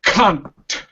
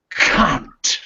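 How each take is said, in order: First: Scottish accent. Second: East London accent. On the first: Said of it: "two examples ... in both accents". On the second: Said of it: "East London vernacular". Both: Shown as a demonstration.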